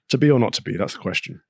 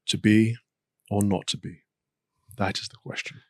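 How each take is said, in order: First: It is delivered in a too loose, casual way. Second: It is delivered in an overdone, dramatic way.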